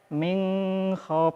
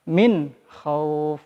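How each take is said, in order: First: The n is nasalized and prolonged. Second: The n is pronounced clearly without nasalization. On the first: The speaker calls it wrong. "bisa jadi bacanya min khauf, padahal ini harusnya dibaca izhar" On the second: The speaker calls it right. "Jadi harus dibaca dengan jelas"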